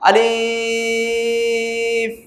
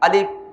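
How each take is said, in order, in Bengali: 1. শব্দটি টেনে লম্বা করে বলা হয়েছে। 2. শব্দটি ছোট করে বলা হয়েছে, ঠোঁট বন্ধ হয়ে। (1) "লম্বা" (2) "দুই ঠোঁট লেগে গেছে"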